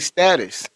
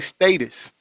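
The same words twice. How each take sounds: First: It is said with an American accent. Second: It is said with a British accent. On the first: "we say status" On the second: "they say status"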